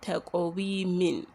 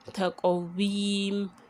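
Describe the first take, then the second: First: The word ends with an added -in syllable. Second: The word ends on the m consonant. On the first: The reciter is joining it to the next verse. The speaker calls it wrong. "and not taqweemin" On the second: The reciter is stopping at the end of the verse. The speaker calls it right. "we are substituting it with a sukun"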